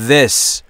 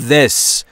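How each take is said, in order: First: The vowel is short and clipped. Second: The same.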